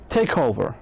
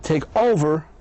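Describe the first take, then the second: First: The stress is on take. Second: The stress is on over.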